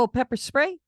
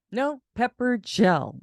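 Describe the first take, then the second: First: Pepper spray question. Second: "No" slow and firm, "gel" corrected; slow correction: "pepper gel."; correcting spray to "gel" slowly; stress on gel. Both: Retold or imitated.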